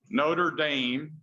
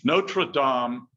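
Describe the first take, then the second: First: It is said with an English pronunciation. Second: It is said with a French pronunciation. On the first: It names the university in Indiana. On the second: It names the cathedral in Paris.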